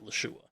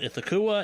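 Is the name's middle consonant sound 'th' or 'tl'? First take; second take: tl; th. First: The name has a 'tl' sound in the middle. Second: The name has a 'th' sound in the middle. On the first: This follows the official source. The speaker calls it right. "the correct pronunciation by Delta Green Standards" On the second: This is the familiar habitual form. The speaker calls it wrong. "I have grown up calling"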